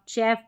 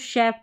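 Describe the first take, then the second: First: The word begins with a 'ch' sound. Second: The word begins with an 'sh' sound. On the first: The speaker calls it wrong. "नहीं तो आप चेफ पढ़ सकते हैं" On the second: The speaker calls it right. "इसको शेफ पढ़ेंगे"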